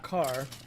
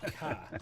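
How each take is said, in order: First: The final r is clearly pronounced. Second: The final r is dropped, Boston style.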